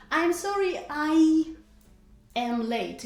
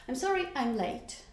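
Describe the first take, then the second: First: I AM LATE said slowly in full, with a gap before AM; louder, slower, every word of I'm sorry I am late separate; full careful form. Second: Said in the usual way. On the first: Shown as a demonstration. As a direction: spell out "I am late" unhurriedly. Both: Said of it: "we skip this that in conversational style".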